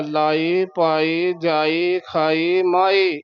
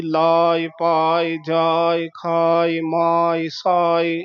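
First: ਲਾਏ, ਪਾਏ with clearly voiced final "e"; full "e" ending. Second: ਲਾਇ, ਪਾਇ with long "aa", light short "i"; lengthened "aa". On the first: Teacher listing the contrasting words, full final "e". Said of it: "ਜਿੱਥੇ ਲਾਂ ਹੋਵੇ ਉੱਥੇ ਬੋਲਣਾ ਹੈ". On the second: Teacher listing sihari words, long vowel, light ending. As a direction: stretch the "aa" in ਲਾਇ, ਪਾਇ, release on "i". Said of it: "ਕੰਨੇ ਨੂੰ ਵਧਾ ਦੇਣਾ ਹੈ". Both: Shown as a demonstration.

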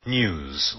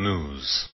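First: "News" said NYOOZ with a y glide; "News" with a y before the oo, nyooz; "News" the British way, nyooz. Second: "news" said NOOZ with no y glide; "news" with a plain oo, nooz; "news" the American way, nooz. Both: Shown as a demonstration. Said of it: "also American news".

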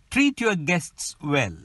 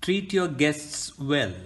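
First: Treat and guests and well stressed, your weak; stress rhythm. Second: Treat your guests well spoken x0.7 slow, beats on Treat guests well; slow stress rhythm. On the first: Teacher models sentence stress for learners, evenly beating. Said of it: "Stress rhythm in connected speech". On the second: Teacher slows the sentence to show stress beats. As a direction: tap out tum ti tum tum slowly. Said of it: "Tum ti tum tum". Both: Shown as a demonstration.

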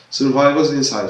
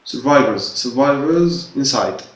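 First: Said in the usual way. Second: Slow reading. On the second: Shown as a demonstration. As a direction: read "survivors inside" very slowly, syllable by syllable. (قراءة بطيئة لكلمة "survivors" حرفا حرفا) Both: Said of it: "أبيك عيد تقرأ survivors".

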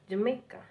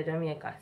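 First: "Jamaica" lifted higher, as the man said it; imitated correction. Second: "Jamaica" lower and softer, in Jamaican accent; own Jamaican pronunciation. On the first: Woman imitating the man who corrected her "Jamaica", higher pitch. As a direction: mimic his correction of "Jamaica", pitch raised. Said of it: "you correct me". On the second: Shown as a demonstration. Jamaican repeating her own "Jamaica", soft native pronunciation. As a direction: say "Jamaica" low and plain, the native way. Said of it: "And me, I tell you, say".

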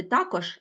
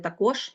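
First: Також said as TA-kozh; також with the opening syllable strong; stress on first syllable. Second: Також said as ta-KOZH; також with the final syllable strong; stress on second syllable. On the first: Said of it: "слова з подвійним наголошенням". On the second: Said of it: "а можна сказати". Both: Shown as a demonstration.

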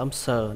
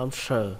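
First: "âm sờ" with sờ said as a plain hissing s; plain S sound. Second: "âm sờ" with sờ said as sh, tongue curled. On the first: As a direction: say sờ like "xờ", tongue not curled. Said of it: "nó không phải là âm sờ". (đọc "sờ" thành "xờ", không cong lưỡi) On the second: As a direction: say sờ as an airy "sh". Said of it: "cái lưỡi nó hơi cong lên". (đọc "sờ" cong lưỡi, bắn hơi như sh) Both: Shown as a demonstration.

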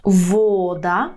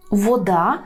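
First: Вода with a long, stressed во; first-syllable stress. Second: Вода stressed on да, the Ukrainian way; stress on last syllable. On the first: Teacher models Polish for learners, stress on во in вода. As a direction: lean on во in вода. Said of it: "так само". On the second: Teacher gives the Ukrainian word, stress on да in вода. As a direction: put the weight on да in вода. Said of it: "українською мовою ми кажемо". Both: Shown as a demonstration.

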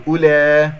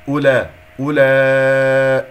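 First: أولى with the final aa bent toward eh; faulty, slanted أولى; wrong vowel. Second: أولى with short u and long clean aa; slow, loud recited أولى; correct madd sound. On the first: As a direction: tilt the last vowel of أولى, loudly. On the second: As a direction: hold the laa of أولى loudly. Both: Shown as a demonstration. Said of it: "لا تقل أولى".

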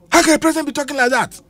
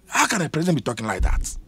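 First: Higher and fast, incredulous; exasperated outburst. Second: Softer, half to himself; quiet disbelief. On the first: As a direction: fire the question off in outrage. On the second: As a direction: mutter it in disbelief. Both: Real, not acted. Repeated exasperated rhetorical question.

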